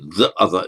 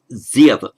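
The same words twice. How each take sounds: First: 'The' is said as before a consonant. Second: 'The' is said as before a vowel. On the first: The speaker calls it wrong. "we don't say the other" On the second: The speaker calls it right. "it becomes the other"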